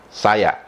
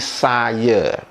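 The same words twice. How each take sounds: First: The final vowel is a full a sound. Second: The final vowel is an e sound. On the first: This is the standardized pronunciation. "betul-betul sama seperti bagaimana rakyat Indonesia mengucapkan" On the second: This is the common Malaysian pronunciation. "Kosakata saya diucapkan menjadi saya"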